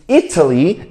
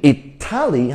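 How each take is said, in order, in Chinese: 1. 重音在第一个音节。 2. 重音在第二个音节。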